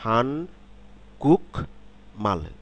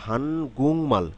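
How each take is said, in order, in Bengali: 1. মাঝের অক্ষরটি k ধ্বনিতে শেষ হয়। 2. মাঝের অক্ষরটি ng ধ্বনিতে শেষ হয়।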